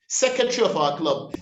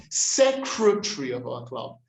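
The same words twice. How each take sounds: First: Secretary hurried without its first R; common mispronunciation. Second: Secretary with its first R sounded; corrected pronunciation. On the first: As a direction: say secretary as SEK-uh-tree. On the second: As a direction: model secretary as SEK-ruh-tree. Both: Shown as a demonstration. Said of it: "The approximate r".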